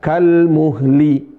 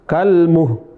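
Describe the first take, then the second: First: The word ends with l plus an i vowel. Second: The word ends on h with no l. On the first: "Bukan kalmuhli" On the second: "Bukan kalmuh"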